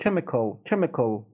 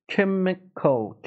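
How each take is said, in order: First: Said in the usual way. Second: Chemical very slowly, syllable by syllable, higher. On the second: Shown as a demonstration. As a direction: stretch Chemical into three clear parts. Teacher slows word for demonstration.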